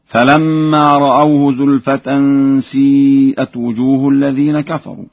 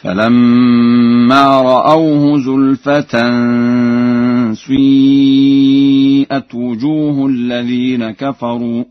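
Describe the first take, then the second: First: Said in the usual way. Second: Slow chant, "سيئت" begun with rounded oo gliding to ee; Warsh ishmam. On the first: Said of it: "بإشمام كسرة الشين ضما". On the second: Shown as a demonstration. Teacher demonstrating Warsh's reading, "سيئت" with u-tinted ee. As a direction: round the first vowel of "سيئت" towards u, long held. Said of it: "بإشمام كسرة الشين ضما هكذا".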